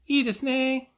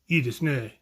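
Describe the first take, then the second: First: It is said in a more feminine manner. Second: It is said in a more masculine manner. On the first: "or feminine" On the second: "somebody more masculine"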